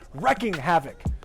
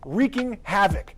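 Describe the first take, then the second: First: The first word has a short e vowel. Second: The first word has a long ee vowel. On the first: The speaker calls it wrong. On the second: The speaker calls it right.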